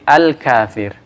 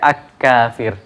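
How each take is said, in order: First: The L is pronounced clearly before the K. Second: The L merges into a doubled K sound. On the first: The speaker calls it right. "tapi al-kafir" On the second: The speaker calls it wrong. "Kita tidak baca ak-kafir"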